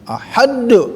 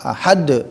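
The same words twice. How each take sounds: First: The final d bounces with a strong echo. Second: The final d flows smoothly without bounce. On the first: The speaker calls it wrong. "mantul kokolah kubro" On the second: The speaker calls it right. "ngalir biasa"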